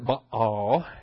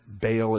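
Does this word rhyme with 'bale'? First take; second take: no; yes. First: The word does not rhyme with 'bale'. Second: The word rhymes with 'bale'. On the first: It is closer to the original Hebrew. "that's more in keeping with the Hebrew and with the Phoenician" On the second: It is the easy local pronunciation. "that's kind of the Texan pronunciation"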